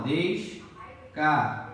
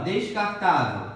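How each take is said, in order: First: "descartável" drawn out with gaps between syllables. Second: Said in the usual way. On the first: Shown as a demonstration. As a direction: separate each syllable of "descartável", slowly. ("descartável" devagar, separando as sílabas) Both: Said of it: "Separação".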